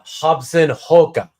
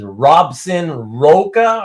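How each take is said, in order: First: The name begins with an H sound. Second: The name begins with an R sound. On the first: The speaker calls it right. "that's really pronounced uh, Hobson Roca" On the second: The speaker calls it wrong. "who you would probably pronounce as Robson Roca"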